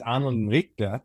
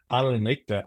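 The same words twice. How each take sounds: First: "Arnold and Richter" in a light German accent, R dropped. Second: German accent. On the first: Colleague explains the German name in a German accent. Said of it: "poor but somewhat okay German accent". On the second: Colleague shows the German way in a German accent. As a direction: say "Arnold and Richter" like a German speaker. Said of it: "with the German accent". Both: Shown as a demonstration.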